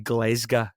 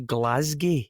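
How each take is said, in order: First: It is the local Glasgow slang pronunciation. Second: It is an outsider's fake Scottish pronunciation.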